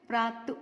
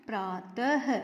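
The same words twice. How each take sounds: First: प्रात ending on t with no h after it; प्रात as a bare word; without the visarga. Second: प्रातः with a separate, stressed "ha" at the end; प्रातः in parts, landing on the h; sounded visarga. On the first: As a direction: say प्रात leaving off the final h. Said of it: "अब हम इसको नहीं बोलेंगे". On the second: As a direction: punch out the final h of प्रातः. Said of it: "इसको मिला के क्या बोलेंगे". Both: Shown as a demonstration.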